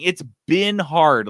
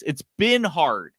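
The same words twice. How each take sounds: First: "been" stressed, slow and a bit louder; "It's been hard" with "been" leaned on. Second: "been" leaned on, slow; "been" drawn out and stressed. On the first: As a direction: hit "been" hard, slowly. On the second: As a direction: slowly stress "been" in "It's been hard". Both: Shown as a demonstration. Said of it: "It's not that it would be hard".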